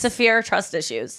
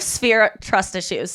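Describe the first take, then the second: First: "Severe" in two syllables, suh-veer; wordplay on severe. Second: "Sphere" as one syllable, sf-eer; wordplay on Sphere. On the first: Comedian explaining her pun, "Severe" in two syllables. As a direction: open up "Severe" with a vowel after the s. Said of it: "I have Sphere trust issues". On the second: Comedian punning on her distrust, "Sphere" in one syllable. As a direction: say "Sphere" with the f run straight into the s. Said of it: "I have severe tr". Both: Shown as a demonstration.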